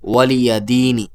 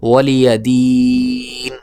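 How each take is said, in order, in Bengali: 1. স্বরটি সংক্ষেপে উচ্চারিত হয় এবং শেষ ধ্বনিটি শোনা যায়। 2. স্বরটি লম্বা টেনে উচ্চারিত হয় এবং শেষ ধ্বনিটি বাদ পড়ে।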